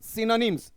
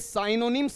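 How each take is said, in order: First: The first syllable sounds like 'sin'. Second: The first syllable sounds like 'sigh'. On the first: The speaker calls it right. "इसका उच्चारण देख लीजिएगा" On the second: The speaker calls it wrong. "ये साइनोनिम्स नहीं है"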